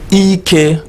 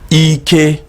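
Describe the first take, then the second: First: The pitch drops from high to mid. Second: The second syllable does not drop in pitch. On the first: It means to tie something. "So this is high and middle, high, middle" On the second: It means strength. "The first one was E K, which means strength"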